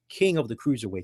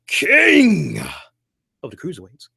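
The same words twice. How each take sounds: First: It is said in a flat, ordinary way. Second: It is said in a grand, proclaiming way. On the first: The speaker calls it wrong. "You can't say King of the Cruiserweights" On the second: The speaker calls it right. "you got to make it come off as if King of all kings"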